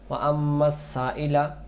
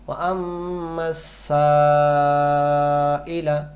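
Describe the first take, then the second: First: The long vowel is cut short. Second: The long vowel is held at full length. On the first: The speaker calls it wrong. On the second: The speaker calls it right.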